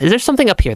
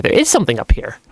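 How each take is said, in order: First: Higher-pitched wondering question on "something"; curious question. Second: "is" stressed, falling statement; confirming stress on IS. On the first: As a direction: wonder aloud, lifting "something". Wondering, then confirming what is found. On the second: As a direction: answer yourself, leaning on "is". Confirms own question just asked. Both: Real, not acted.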